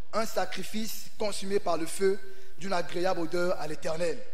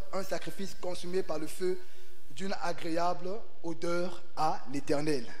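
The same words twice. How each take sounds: Both takes have the same delivery.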